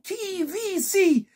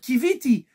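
First: The final syllable is said with an s sound. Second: The final syllable is said with a t sound. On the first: Who will take me out of here? "elle disait ça avec l'intonation qui vit ici" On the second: I have hoped. "elle avait l'intention de dire qui viti"

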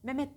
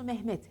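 First: The h sound is swallowed. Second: The h sound is clearly pronounced. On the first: The speaker calls it wrong. "Mehmet derler" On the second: The speaker calls it right. "Doğrusu Mehmet. H'yi yutmadan"

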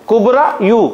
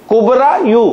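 The two takes are said the same way.

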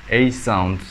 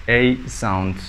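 Both takes have the same delivery.

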